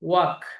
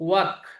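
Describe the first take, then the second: First: The L sound is silent in the word. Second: The same.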